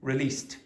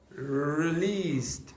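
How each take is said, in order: First: The pitch simply falls across the word. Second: The pitch goes down and then back up. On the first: The speaker calls it right. "How did I say it?" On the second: The speaker calls it wrong. "It's almost a Chinese pronunciation where you go down and up"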